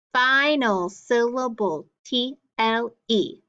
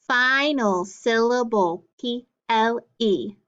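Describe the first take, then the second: No difference in how they are said.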